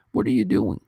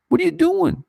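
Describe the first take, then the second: First: Said in the usual way. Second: Retold outcry, pitched far up; baffled, demanding what they're doing; incredulous. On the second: Intern Kramer writing to Penn Studios, high incredulous. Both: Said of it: "to write an email to Penn Studios to say".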